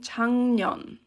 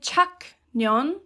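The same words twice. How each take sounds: First: The first syllable ends in a nasal sound. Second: The first syllable ends in a k sound. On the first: The speaker calls it right. "you say 작년. It's much more natural to say it this way" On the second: The speaker calls it wrong. "So you don't say 작년, um, you don't say that"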